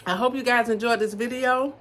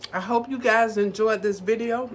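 First: Said in the usual way. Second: Talking with mouth full. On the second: Real, not acted. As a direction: speak through a mouthful of food. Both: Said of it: "Sorry, my mouth is full".

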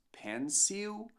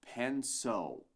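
First: Pencil with a clear final l, pen-seel; wrong pronunciation. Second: Pencil very slow, final l like o, pen-sow; right pronunciation. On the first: Teacher showing the mistake, carefully spelled-out pencil. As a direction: sound out pencil letter by letter. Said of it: "Não dizemos pencil". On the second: Teacher modelling the correct word, very slow pencil. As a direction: stretch pencil slowly, ending in a dark o. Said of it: "mas sim". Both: Shown as a demonstration.

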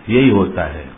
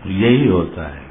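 No difference in how they are said.

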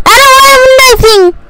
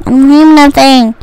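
First: High-pitched whiny protest; high complaint. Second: Lower, resigned repeat; low complaint. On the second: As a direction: drop the pitch, giving up. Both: Real, not acted. Complains twice, high then low.

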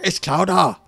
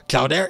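First: Boston accent. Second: Said in the usual way. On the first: Shown as a demonstration. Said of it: "that's more Boston, where they, uh, go, like, with just no R at all". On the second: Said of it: "But that's more Boston".

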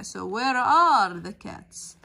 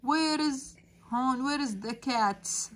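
First: Are stretched and louder; teacher correcting is to are, leaning on are; stress on are. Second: Said in the usual way. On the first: Shown as a demonstration. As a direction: hit the word are, slow and loud. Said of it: "لأنه الكاتس جمع". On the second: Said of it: "صح اللي أنا حكيته؟ أكيد لا".

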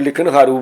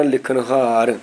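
First: ਲਿਖਣਹਾਰੂ with an added "oo" ending; ਲਿਖਣਹਾਰੂ misread, ending in -roo; wrong final u. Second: ਲਿਖਣਹਾਰ ending cleanly on r, no u; slow, drawn-out ਲਿਖਣਹਾਰ with silent final u; silent final aunkar. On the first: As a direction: say ਲਿਖਣਹਾਰੂ, sounding the final aunkar. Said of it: "ਇਹ ਕਿੰਨਾ ਗਲਤ ਹੋਏਗਾ". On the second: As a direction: stretch ਲਿਖਣਹਾਰ, stopping on the r. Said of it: "ਰਾਰੇ ਦੀ ਔਂਕੜ ਨਹੀਂ ਬੋਲਦੀ". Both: Shown as a demonstration.

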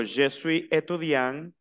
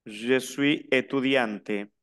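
First: Étudiant ending on a rising nasal, no T; silent final T. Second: Étudiante drawn out, T audible; sounded T ending. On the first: Teacher shows students the masculine, slow, étudiant with silent T. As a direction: drop the T of étudiant, unhurried. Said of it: "El masculino no se pronuncia la T". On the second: Teacher shows students the feminine, slow, étudiante with its T sounded. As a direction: slowly release the T at the end of étudiante. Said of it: "la que termina es la E, no la T". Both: Shown as a demonstration.

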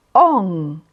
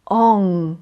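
First: "Он" repeated, low and drawn out; repeated nasal o. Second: "он" said low and nasal; nasal o demo. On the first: Teacher repeating the nasal sound for students. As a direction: say "Он" once more. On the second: Teacher presenting the nasal letter, low. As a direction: model the nasal "он". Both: Shown as a demonstration. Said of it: "Літерка".

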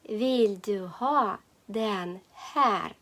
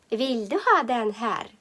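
First: "Vill du ha den här" slowly, a pause between words. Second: Said in the usual way. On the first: Shown as a demonstration. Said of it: "Повторюємо". («Vill du ha den här» повільно, по словах)

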